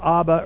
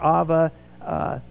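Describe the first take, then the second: First: The middle consonant is a B sound. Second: The middle consonant is a V sound. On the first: "changes it from a B to a V sound" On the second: "changes it from a B to a V sound"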